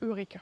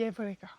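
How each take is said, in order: First: The word begins with an 'eu' sound. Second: The word begins with an 'ev' sound. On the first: The speaker calls it wrong. "C'est pas Eureka" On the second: The speaker calls it right. "ça se dit Evreka"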